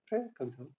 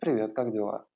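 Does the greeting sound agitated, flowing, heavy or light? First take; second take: light; heavy. First: The greeting is said lightly and airily. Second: The greeting is said heavily and with effort. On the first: The surrounding space feels like fluttering lightness. "пространство сделано из легкости, то есть у вас бабочки в теле" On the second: The surrounding space feels like thick clay. "вы можете это сделать в материи глины"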